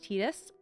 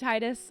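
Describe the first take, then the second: First: The name has its canonical, original pronunciation. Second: The name has a North American pronunciation. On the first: The speaker calls it right. "it actually is canonically pronounced Tidus" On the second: The speaker calls it wrong. "I've been saying Tidus, I do believe from what I've heard that that tends to be a pretty North American or maybe Western pronunciation"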